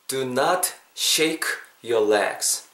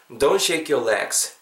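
First: It is spoken slowly, each word separate. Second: It is spoken quickly, with words contracted. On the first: "다 천천히 했으니까" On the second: "자연스럽게 해보겠습니다"

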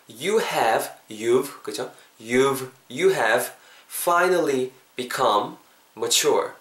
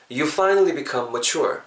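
First: Each word is said slowly and separately. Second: The words run together at natural speed. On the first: "천천히 해볼게요" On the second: "요건 자연스럽게 이어볼게요"

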